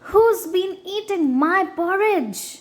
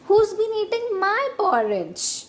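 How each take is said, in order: First: A big, deep, gruff voice says it. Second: A middle-pitched, medium voice says it. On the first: A large adult bear is speaking. "he said in his great gruff voice" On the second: A medium-sized bear is speaking. "in her middle-sized voice"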